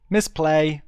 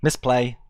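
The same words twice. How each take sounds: First: Higher, louder self-scolding repeat; louder rueful repeat. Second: Said in the usual way. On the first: Real, not acted. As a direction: stress the blunder more the second time.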